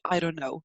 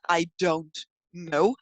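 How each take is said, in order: First: The words are connected into one reduced chunk. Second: Each word is said separately and clearly. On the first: "you just connect it into" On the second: "instead of just I don't know"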